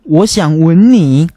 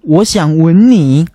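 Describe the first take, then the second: First: The verb is said with the 'kiss' tone. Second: The verb is said with the 'kiss' tone.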